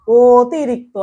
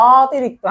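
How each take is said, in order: First: অতিরিক্ত with a long, round first "o"; stretched "o" start. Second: অতিরিক্ত with a long, open first "aw"; stretched "aw" start. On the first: Teacher showing the correct sound, অতিরিক্ত with long "o". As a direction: hold the "o" opening of অতিরিক্ত. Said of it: "অতিরিক্তটাও ও". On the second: Teacher showing what we don't say, অতিরিক্ত with long "aw". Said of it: "আমরা বলি না অতিরিক্ত". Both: Shown as a demonstration.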